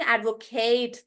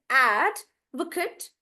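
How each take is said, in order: First: "advocate" with a long "KATE" ending; "advocate" as "ad-vo-KAYT"; verb pronunciation. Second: "advocate" with stretched AD, reduced "kut"; "advocate" as the noun, "AD-vuh-kut"; stress on AD. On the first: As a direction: lean on the last syllable of "advocate". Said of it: "I'm not saying advocate then". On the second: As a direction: draw out AD, pause, then small "vuh-kut". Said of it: "So then I'll say". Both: Shown as a demonstration.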